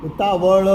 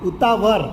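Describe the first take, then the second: The two takes are said the same way.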